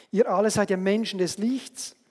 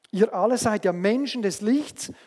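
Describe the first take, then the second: Both takes have the same delivery.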